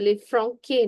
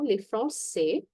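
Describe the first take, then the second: First: The c in Français sounds like k. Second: The c in Français sounds like s. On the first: The speaker calls it wrong. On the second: The speaker calls it right. "it has a s sound"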